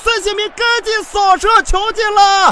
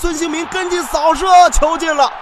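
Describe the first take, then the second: First: It is said in a playful, lively commentary tone. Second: It is said in a serious, formal commentary tone. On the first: The speaker calls it right. "赶紧恢复你的状态" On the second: The speaker calls it wrong. "怎么突然变得这么正经？"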